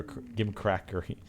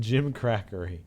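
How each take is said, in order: First: Gimcrackery with a hard g, as in give; gimcrackery starting like "gimp". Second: Gimcrackery opening with a j sound. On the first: Tries two pronunciations of word. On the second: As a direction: say gimcrackery starting like "Jim". Corrects to second pronunciation. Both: Shown as a demonstration.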